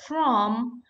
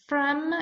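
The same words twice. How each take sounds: First: The word has a full, clear vowel. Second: The word has a short, reduced vowel. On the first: "is from is a strong form" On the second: "this is a weakened form"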